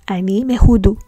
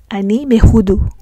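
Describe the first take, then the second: The two takes are said the same way.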